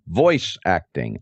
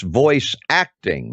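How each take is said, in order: First: The stress falls on the word voice. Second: The stress falls on the word acting. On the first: Having a good voice is what matters. The speaker calls it wrong. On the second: The craft of acting is what matters. The speaker calls it right.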